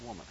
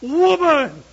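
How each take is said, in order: First: The word is said in a calm, flat way. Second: The word is shouted with great excitement. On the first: The speaker calls it wrong. "I just don't think that's the way Adam said it" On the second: The speaker calls it right. "I think that's a little bit more like Adam's response"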